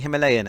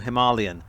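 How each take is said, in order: First: The word is said the British way. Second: The word is said a non-British way. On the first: "the British pronunciation is officially Himalayan" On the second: "as opposed to"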